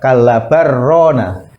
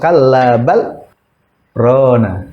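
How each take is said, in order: First: The l merges into r with no stop. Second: There is a brief stop after bal without breathing. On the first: It sounds like a word meaning two lands. The speaker calls it wrong. "kalau dibaca idgham berarti apa?" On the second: The intended meaning is clear. The speaker calls it right. "itu jelas"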